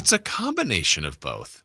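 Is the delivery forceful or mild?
mild. It is said in a mild, gentle way. The speaker calls it right. "what if I say it this way?"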